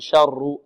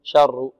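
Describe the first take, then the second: First: The r sound is rolled several times. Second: The same.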